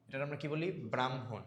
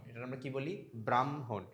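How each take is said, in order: Both takes have the same delivery.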